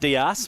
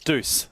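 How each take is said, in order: First: The word is said with two syllables, dee-us. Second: The word is said as one syllable, doose. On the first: The speaker calls it wrong. "I've been saying Dias" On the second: The speaker calls it right. "but it's Deuce"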